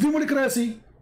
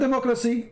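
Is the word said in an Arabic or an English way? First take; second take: Arabic; English. First: The word is said with Arabic-style pronunciation. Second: The word is said with ordinary English pronunciation. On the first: This is claimed to be the real Arabic word. The speaker calls it right. "it's democracy. Anyone who speaks Libyan, he understands" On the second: This is the usual form of the word. The speaker calls it wrong. "the word democracy is not democracy"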